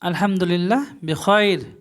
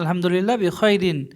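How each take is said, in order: First: The last word ends without an -in ending. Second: The last word ends with an -in ending. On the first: It is the casual everyday form. "বাজারে খুব চলে" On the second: It is the original full form. "আসলে এটা বিখয়রিন ছিল"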